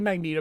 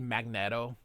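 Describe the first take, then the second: First: The first part sounds like magnee, long ee. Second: The first part sounds like magnet, short e. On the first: This is how most people say it. The speaker calls it wrong. "that's how everybody pronounces it" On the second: This follows the word's spelling. The speaker calls it right. "It really should be Magneto. It's magnet and an O"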